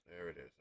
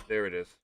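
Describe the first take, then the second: First: Quiet mutter under breath; muttered to self. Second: Said in the usual way. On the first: Real, not acted. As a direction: say it softly to yourself. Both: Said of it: "found the missing thing".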